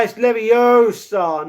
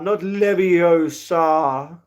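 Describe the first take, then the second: First: Hermione correction. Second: The wrong "Leviosa" dragged out very slowly; mock the misspoken "Leviosa", stretched long. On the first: Retold or imitated. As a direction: lightly mimic the know-it-all wizard-class correction. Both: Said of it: "You're a wizard".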